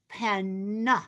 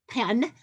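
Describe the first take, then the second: First: It is said with careful, clear enunciation. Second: It is said casually, without careful enunciation.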